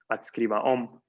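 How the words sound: The stress falls on the word om. To write something again. "El particle verb se pronuncia adscriba om"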